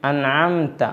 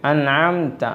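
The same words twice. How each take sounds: No difference in how they are said.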